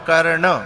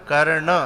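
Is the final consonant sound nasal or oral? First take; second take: nasal; nasal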